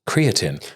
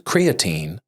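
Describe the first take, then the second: First: It is said with a British pronunciation. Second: It is said with an American pronunciation. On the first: The speaker calls it right. "The British way is" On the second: The speaker calls it wrong. "there's an American pronunciation, which is creatine"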